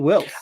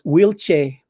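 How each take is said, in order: First: The name ends with an 's' sound. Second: The name ends with a 'ch' sound.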